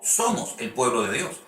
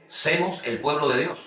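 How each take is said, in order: First: "somos" said correctly, with a clear o in both syllables; correct form somos. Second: "semos" said as the mistaken form, with an e sound in place of the o of "somos"; wrong form semos. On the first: Preacher correcting the mistake for his listeners, clearly saying "somos". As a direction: give the right version, "somos", cleanly. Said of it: "es somos". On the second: Preacher showing the congregation a common mistake, demonstrating the wrong "semos". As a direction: say "semos el pueblo de Dios" the way an uneducated preacher would. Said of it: "no semos, es somos".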